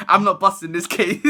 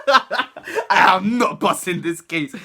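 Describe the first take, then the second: First: Said in the usual way. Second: Slow, drawn-out through laughter; laughing at my own hopeless case; laughing slowly. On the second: Retold or imitated. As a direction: spell it out slowly while cracking up. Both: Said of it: "In my head, I was like".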